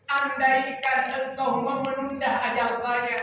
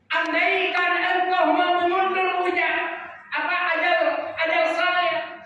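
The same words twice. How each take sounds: First: Said in the usual way. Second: Higher, pleading preacher's voice; raised-voice plea. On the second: Acted. Dying man begs Allah for more time, pleading higher. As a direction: plead it higher, as one near death. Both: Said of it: "dia mengatakan terhadap Allah".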